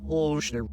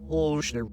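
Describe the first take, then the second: The two takes are said the same way.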